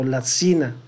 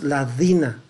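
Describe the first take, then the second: First: The middle consonant sounds like a sibilant. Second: The middle consonant sounds like a d. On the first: "o lacina" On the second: "no es ladina"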